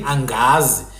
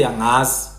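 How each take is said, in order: First: "angazi" with a sounded hard g after ng; hard-g form. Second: "angazi" with ng as in singer; Hlubi soft ng. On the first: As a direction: say "angazi" as ang-gazi. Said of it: "instead of saying angazi". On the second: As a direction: say "angazi" with no hard g. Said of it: "a Hlubi person will say angazi". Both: Shown as a demonstration.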